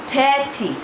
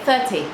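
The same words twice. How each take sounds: First: It is said in a put-on local accent. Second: It is said in the speaker's usual accent. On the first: Locals will understand it. The speaker calls it right. "a little bit of an accent" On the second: Locals will not understand it. The speaker calls it wrong. "That's how I would say it"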